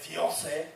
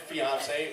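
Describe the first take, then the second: First: It is said with a put-on French accent. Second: It is said with a plain, unaccented pronunciation.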